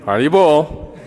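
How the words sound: It is said as a cautionary warning. Watch out. "It can mean a warning"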